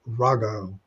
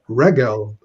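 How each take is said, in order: First: The word has a heightened 'a' vowel. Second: The word has its ordinary 'e' vowel. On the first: The word stands at a pause in the verse. "Notice the heightening there because it is in pause" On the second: The word is in its normal form. "the segolate noun, notice accented on the first syllable"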